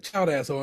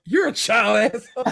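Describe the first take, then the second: First: Said in the usual way. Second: Louder comeback, a bit higher; mock Carmi comeback. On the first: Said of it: "But he said". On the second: Carmi retorting to Richie, louder mock jab. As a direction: throw the insult straight back. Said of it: "Carmi responds".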